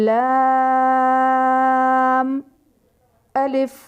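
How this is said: A short pause separates the two letter names. The speaker calls it right. "हर हर्फ के बाद कुछ देर रुकेंगे"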